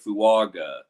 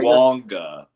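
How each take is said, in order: First: The name is said without an n sound. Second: The name is said with an n sound. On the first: The speaker calls it wrong. "We're all saying Talise Fuaga. That's incorrect" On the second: The speaker calls it right. "Like there's an N"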